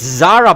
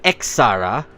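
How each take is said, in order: First: The word begins with a plain z sound. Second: The word begins with an eks sound. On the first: The speaker calls it right. "It's Zara, by the way" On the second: The speaker calls it wrong. "not X-Zara. Don't listen to Google Translate"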